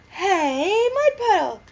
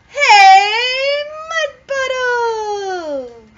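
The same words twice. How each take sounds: First: It is yelled at a normal loudness. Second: It is yelled even louder.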